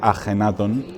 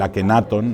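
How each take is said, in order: First: The middle consonant is a throaty kh sound. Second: The middle consonant is a plain k sound. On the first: The speaker calls it right. "Cuando deberíamos decir Agenaton" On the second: The speaker calls it wrong. "eso queda muy de película de Javier Bardem"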